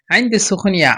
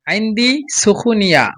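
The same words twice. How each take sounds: First: Said in the usual way. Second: আইন্দি সুখনিয়া said slowly, stress on আইন্দি, long final aa; slow model phrase. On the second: Shown as a demonstration. Teacher repeats phrase slowly for students to copy. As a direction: drag out আইন্দি সুখনিয়া syllable by syllable. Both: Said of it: "কিভাবে উচ্চারণ করতেছি সেই হিসাবে আপনারা উচ্চারণ করবেন".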